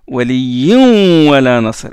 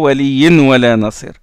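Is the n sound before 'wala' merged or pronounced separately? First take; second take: merged; separate. First: The n sound merges into the following w. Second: The n sound is pronounced separately before w. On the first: The speaker calls it right. "on fait élision" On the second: The speaker calls it wrong. "Et non pas"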